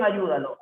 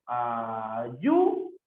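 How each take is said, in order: First: Said in the usual way. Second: "ayúdalo" in slow pieces, YÚ swooping up; syllable separation. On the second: Shown as a demonstration. Teacher showing the separación, "ayúdalo" in slow separate syllables. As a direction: break "ayúdalo" into syllables, lifting YÚ. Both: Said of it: "cómo sería en ayúdalo".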